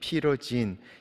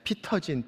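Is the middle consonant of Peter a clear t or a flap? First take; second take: flap; clear t. First: The middle consonant is a soft flap. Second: The middle consonant is a clear t. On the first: This is how it was said in America. "피러진 이렇게 발음을 했습니다" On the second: This is how people in Korea say it. "피터 이렇게 발음을 합니다"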